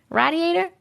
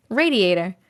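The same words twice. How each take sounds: First: "Radiator" with "rad" as the first syllable, higher; short "a" in "Radiator", questioning; alternative pronunciation. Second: "Radiator" with "ray" as the first syllable; long "a" opening in "Radiator"; usual pronunciation. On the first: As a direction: query "Radiator" as "RAD-ee-ay-ter". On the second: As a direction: say "Radiator" as "RAY-dee-ay-ter". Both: Shown as a demonstration. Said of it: "I don't know".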